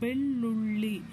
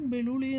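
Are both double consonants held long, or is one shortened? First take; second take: both long; other shortened. First: Both double consonants are held long. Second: The other double consonant is said short. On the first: The speaker calls it right. "ಎರಡು ಅಕ್ಷರ ನಾವು ಒತ್ತಿ ಹೇಳಿದ್ದೀವಿ" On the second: The speaker calls it wrong. "ಅಂತಲೂ ಹೇಳಿಲ್ಲ"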